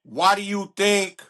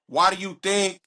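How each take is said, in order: Both takes have the same delivery.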